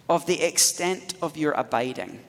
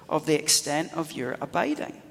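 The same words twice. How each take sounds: The two takes are said the same way.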